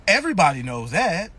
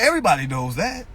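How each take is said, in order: First: Low mock statement, pitch falling; mock know-it-all. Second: "everybody knows that" rising like a question; incredulous echo. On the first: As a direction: imitate a believer stating it as settled fact. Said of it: "Then they be like". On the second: Retold or imitated. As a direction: throw "everybody knows that" back with a questioning lift. Echoes the answer back in disbelief.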